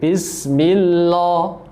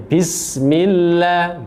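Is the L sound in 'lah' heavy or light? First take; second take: heavy; light. First: The L in 'lah' is heavy and thick. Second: The L in 'lah' is light and thin. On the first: The speaker calls it wrong. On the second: The speaker calls it right. "lafzul jalalanya dibaca uh, tipis"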